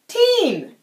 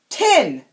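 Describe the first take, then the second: First: The syllable has a long 'ee' vowel. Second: The syllable has a short 'i' vowel. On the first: The speaker calls it right. "there's an E at the end! Teen! Like a team!" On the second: The speaker calls it wrong. "But seriously! Tin!"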